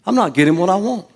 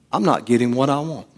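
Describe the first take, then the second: First: Higher, faster confession; emphatic confession. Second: Said in the usual way. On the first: Shown as a demonstration. Preacher having the congregation confess aloud. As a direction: blurt it out. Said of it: "if somebody said that to you". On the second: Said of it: "I want you to say".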